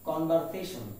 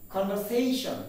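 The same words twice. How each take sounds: First: Conversation with a fuller VER; common mispronunciation. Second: Conversation with a light, weak VER; correct pronunciation. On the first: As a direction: say conversation the commonly mistaken way, "kon-var-se-shon". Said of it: "we pronounce it as". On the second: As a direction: say conversation as "kon-ver-SAY-shun". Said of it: "It is conversation". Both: Shown as a demonstration.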